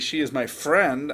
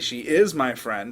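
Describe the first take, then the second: First: The word "friend" carries the emphasis. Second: The word "is" carries the emphasis. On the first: That person is a friend, not something else. "I'm telling you that that person's my friend" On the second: It contradicts a claim that she is not. "I'm responding to somebody who just said she's not my friend"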